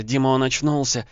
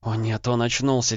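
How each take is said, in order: First: Louder, higher frightened babble; babbling. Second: Frightened babble, higher; panicked stammer; babbling. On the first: Wife calling her husband's name, panicking louder. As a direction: panic rising as she calls him. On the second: Wife seeing the man wake, babbling in fright. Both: Acted. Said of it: "залепетала она".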